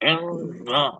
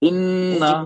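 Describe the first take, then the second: First: The nose is pinched, so the sound is blocked. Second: The nasal sound flows freely through the nose. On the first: "दोनों नोस्ट्रल जो हमारे हैं आपके वहां से बंद कर रहा हूँ।" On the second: "मैं अब पढ़ रहा हूँ।"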